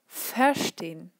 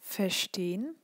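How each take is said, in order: First: The stem syllable is stressed in an exaggerated way. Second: The stem syllable is stressed only lightly.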